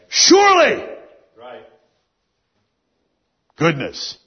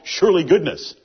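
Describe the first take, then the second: First: There is a clear pause after the first word. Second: The two words run together without a pause. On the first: Surely is an affirmation of certainty before goodness follows. The speaker calls it right. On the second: It sounds like one made-up thing called surely goodness. The speaker calls it wrong.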